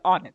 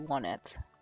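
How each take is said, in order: First: The first syllable does not sound like one. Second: The first syllable sounds like the number one. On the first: This is the more pleasing way the speaker used for years. "But on it sounds so much better" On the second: This follows the pattern of the town names that count up. "I'm pretty sure it's supposed to be one it. You know, keeping in in rhythm with the Tucson, three, four side"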